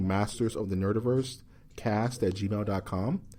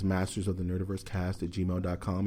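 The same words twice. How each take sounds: First: It is said with normal, varied intonation. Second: It is said in a flat monotone.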